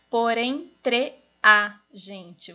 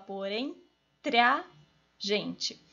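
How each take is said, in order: First: Entre and a are said as separate syllables. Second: Entre and a merge into one syllable. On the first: This is not how people speak. The speaker calls it wrong. "você também não fala" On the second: This is how people speak. The speaker calls it right. "Você fala"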